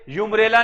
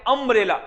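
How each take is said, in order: First: It begins with a 'yoo' sound. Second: It begins with a short 'uh' sound. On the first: The speaker calls it wrong. "यूम्ब्रेला नहीं बोलेंगे" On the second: The speaker calls it right. "क्या बोलेंगे, अम्ब्रेला"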